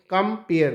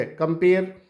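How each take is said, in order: First: "कम पेयर" as two separate beats, "कम", then "पेयर"; split into syllables. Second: Said in the usual way. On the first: Shown as a demonstration. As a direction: break "कम पेयर" after "कम" to count syllables. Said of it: "दो हो गए". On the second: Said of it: "कम पेयर दो हो गए".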